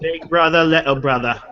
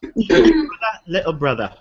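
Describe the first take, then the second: First: It is said in his ordinary American accent. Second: It is said in a put-on English accent.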